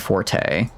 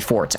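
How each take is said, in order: First: The word ends with a sounded final vowel. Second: The word ends without any final vowel.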